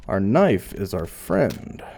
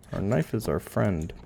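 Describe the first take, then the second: First: Slow, deliberate, each word weighed; slow solemn mantra. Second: Quieter, murmured repeat of the creed; soft echo. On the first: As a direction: intone it slowly like a creed. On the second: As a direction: say it again under your breath. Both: Pretend.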